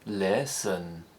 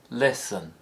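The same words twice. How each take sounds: First: The pitch rises and then falls, stretched out. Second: The pitch steps down on the word. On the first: "The rise-fall" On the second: "step down instead of fall"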